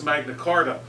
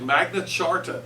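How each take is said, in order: First: The second word begins with a k sound. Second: The second word begins with a ch sound. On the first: This is the pronunciation most people use. "everybody pretty much says Magna Carta" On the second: This is the formally correct pronunciation. "the proper way to say it is actually Magna Charta"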